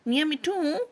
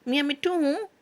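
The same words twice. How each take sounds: First: It is said in an angry tone. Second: It is said in an angry tone.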